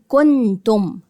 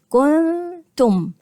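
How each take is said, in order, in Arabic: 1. يُنطق النون كاملاً مع إغلاق اللسان. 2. النون مخفاة دون إغلاق اللسان. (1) "مش هقول كنتم كن واقفل كده المخرج" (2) "هعمل اكني هعمل النون ولكني مش هقفل المخرج"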